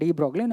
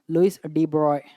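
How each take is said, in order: First: The name is said with a g sound. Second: The name is said without a g sound. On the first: The speaker calls it wrong. "spelling ಅಲ್ಲಿ ಆ ಥರ ಬರೆದ್ರೆ ಡಿ ಬ್ರಾಗ್ಲಿ" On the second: The speaker calls it right. "The correct pronunciation is Louis de Broglie"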